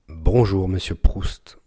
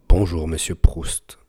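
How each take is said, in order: First: No breath pops are heard on the plosives. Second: Slight breath pops are heard on the plosives. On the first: "Avec grosse bonnette à poil" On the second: "Avec petite bonnette. On entend encore un peu"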